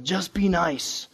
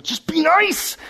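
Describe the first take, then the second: First: Said in the usual way. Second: "Just be nice." pitched high, nice rising; exasperated. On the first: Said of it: "It's like". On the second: Shown as a demonstration. Pastor venting at mean people, high and exasperated. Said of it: "I just wanna tell people".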